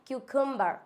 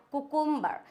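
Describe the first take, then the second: First: "क्यूकम्बर" as KYOO-kum-bar; correct pronunciation. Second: "कुकुम्बर" higher, as ku-KUM-bar; wrong pronunciation. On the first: Teacher corrects learners, "क्यूकम्बर" as kyoo-kum-bar. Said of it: "exact pronunciation होता है". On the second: Teacher shows a mistake, "कुकुम्बर" as koo-koom-bar. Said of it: "ये कुकुम्बर नहीं होता है". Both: Shown as a demonstration.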